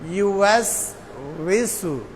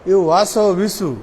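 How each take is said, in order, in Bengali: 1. s-এর পরে কোনো স্বরধ্বনি আসে না; w নরম থাকে। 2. s-এর পরে একটা অতিরিক্ত স্বরধ্বনি আসে; w-এর জায়গায় b হয়। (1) "আবার বলেন ইউএস উইসু" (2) "ওয়াসো এক ভুল আর বিসু এর আর এক ভুল"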